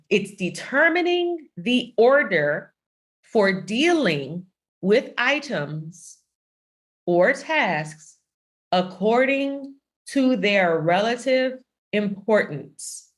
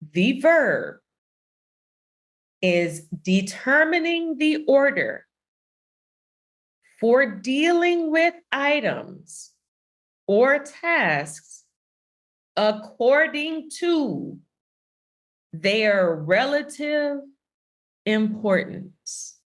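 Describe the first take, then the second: First: It is said at normal speed. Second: It is said more slowly.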